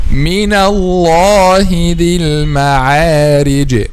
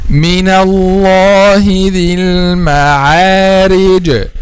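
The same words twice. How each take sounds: The two takes are said the same way.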